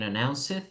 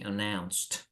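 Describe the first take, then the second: First: The ending has no strong T sound. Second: The ending is a strong T sound. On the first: The speaker calls it wrong. "Instead of saying announced" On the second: The speaker calls it right. "you say announced"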